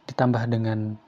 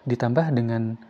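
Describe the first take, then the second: Both takes have the same delivery.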